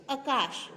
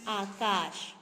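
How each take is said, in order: First: आकाश with short first vowel, "uh-KAASH"; wrong pronunciation. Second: आकाश with long first aa, "AA-KAASH"; careful model "aa-kaash" for आकाश; correct pronunciation. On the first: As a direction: say आकाश as quick "akaash". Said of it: "आकाश नहीं होता है". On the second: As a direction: say आकाश drawn out, both vowels long. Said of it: "क्या होता है?". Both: Shown as a demonstration.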